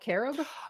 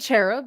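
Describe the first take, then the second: First: The word begins with a hard k sound. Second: The word begins with a soft ch sound. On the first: "it is a hard k sound" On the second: "don't say cherub"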